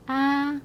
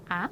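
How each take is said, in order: First: Long, high, level "아". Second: Brief "아", cut short. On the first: Teacher contrasts the first letter, "아" drawn out high. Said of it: "앞에 거". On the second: Teacher contrasts the second letter, "아" kept short. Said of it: "뒤에 거". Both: Shown as a demonstration.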